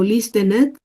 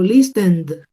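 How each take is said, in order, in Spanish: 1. El final no es un sonido D simple. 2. El final es un sonido D simple. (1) "Yo no digo listened" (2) "el sonido va a ser el sonido de la D"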